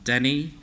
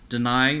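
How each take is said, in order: First: It starts with den and ends with nee. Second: It starts with dee and ends with nigh. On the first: The reader applies general spelling rules without knowing the word. The speaker calls it wrong. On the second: The reader knows what the word means. The speaker calls it right.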